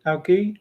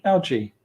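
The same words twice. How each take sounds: First: "algae" with a hard g, as AL-ghee. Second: "algae" with a soft g, as AL-jee. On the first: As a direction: say "algae" with g as in go, voice rising. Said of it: "Is it algae or algae". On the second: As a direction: say "algae" with a j sound, voice falling. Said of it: "still go with algae". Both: Shown as a demonstration.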